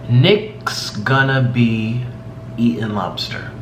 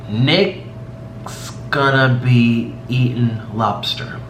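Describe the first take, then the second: No difference in how they are said.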